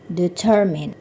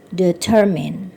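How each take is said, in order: Both takes have the same delivery.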